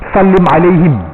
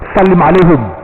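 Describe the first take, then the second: First: The last word ends with the sound 'him'. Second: The last word ends with the sound 'hum'. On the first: This is the formal standard Arabic form. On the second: This is the everyday spoken Arabic form. "Dia kena hum dia, tak boleh him"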